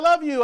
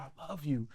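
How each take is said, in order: First: It is said flatly, without real feeling. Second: It is said warmly, with real feeling.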